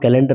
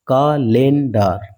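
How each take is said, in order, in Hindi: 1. इसे सामान्य अंग्रेज़ी उच्चारण के साथ बोला जाता है। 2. इसे अक्षर दर अक्षर, स्पेलिंग के अनुसार बोला जाता है। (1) "कैलेंडर ना पढ़ के" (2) "कालेंडार ये पढ़ते हैं"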